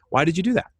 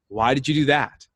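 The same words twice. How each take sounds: First: It is asked in a curious, open tone. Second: It is asked in a judging, accusing tone. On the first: The asker genuinely wants to understand. "that why question can be born out of curiosity" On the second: The asker is criticizing the action. "the other way is judgment"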